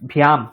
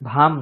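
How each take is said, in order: First: The syllable has a y sound after bh. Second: The syllable has no y sound after bh. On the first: The speaker calls it right. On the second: The speaker calls it wrong. "ভাম নয়"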